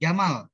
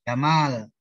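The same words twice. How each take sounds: First: The second vowel is cut short. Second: The second vowel is held long. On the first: It means camel. "Kalau dibacanya pendek" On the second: It means handsome or beautiful. "Kalau Jamal artinya ganteng"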